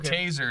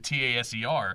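First: It is pronounced as a single word. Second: It is spelled out letter by letter. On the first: It is an acronym. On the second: It is an initialism.

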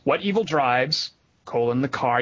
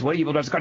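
First: There is a pause right after the word drives. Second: It is said as one question without pausing. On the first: The car is what evil drives. "You could do it that way" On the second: It asks which evil is driving the car. "it's supposed to be what evil, like the question is"

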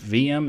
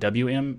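First: The first letter is said as V. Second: The first letter is said as W. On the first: The speaker calls it right. "I say Herbstluft VM" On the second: The speaker calls it wrong. "not WM"

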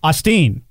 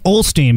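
First: The name is said without an L sound. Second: The name is said with an L sound.

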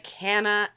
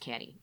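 First: The word ends in an 'ah' vowel. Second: The word ends in an 'ee' vowel. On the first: The speaker calls it wrong. "they wouldn't say tis, that's stupid" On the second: The speaker calls it right. "they'd say canny, like, well, just how it sounds"

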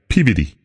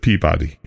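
First: It is said the way locals pronounce it. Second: It is said the way it looks spelled. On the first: "That's what they pronounce it" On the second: "Instead of Peabody"

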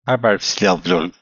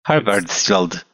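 First: The final sound is a soft fricative. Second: The final sound is a hard D. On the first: The speaker calls it right. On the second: The speaker calls it wrong.

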